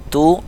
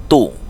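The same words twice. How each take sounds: First: "tu" with a light t, held higher; softened ta with u. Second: "tu" heavy and rounded, dropping in pitch. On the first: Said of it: "huruf ta dia agak dilembutkan". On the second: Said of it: "agak dibulatkan huruf to". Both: Shown as a demonstration.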